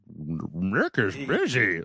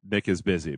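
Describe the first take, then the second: First: It is said in a put-on dog voice. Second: It is said in a normal voice.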